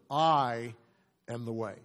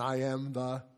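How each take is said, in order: First: The stress falls on "I". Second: The stress falls on "way".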